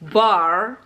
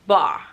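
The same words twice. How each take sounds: First: American accent, with the R sound clearly pronounced. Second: British accent, with the R sound barely pronounced.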